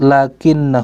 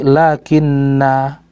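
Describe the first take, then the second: First: The word ends on a short a, linked onward. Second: The word ends on a long a before a pause. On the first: The reader continues without stopping. "kalau lanjut" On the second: The reader stops after this word. "Kalau berhenti"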